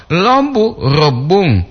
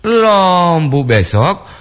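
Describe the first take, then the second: First: Lombu with a brief first O; short O. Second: Lombu with the O held long and high. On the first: Host contrasting lombu meaning bamboo shoot, short vowel. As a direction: keep the O of lombu short and raised. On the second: Host contrasting lombu meaning tomorrow, long vowel. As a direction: stretch the first vowel of lombu slowly. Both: Shown as a demonstration. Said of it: "itu perbandingan dia".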